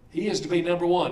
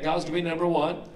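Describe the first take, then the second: First: He is to be number ONE, the word one leaned on and falling; a preacher's falling stress on "one". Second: God's to BE number one, the word be pushed forward; quick preaching stress on "be". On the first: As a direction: land hard on "one" at the end. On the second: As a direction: lean on "be", so God is meant to be first. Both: Shown as a demonstration. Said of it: "Do you agree with that?".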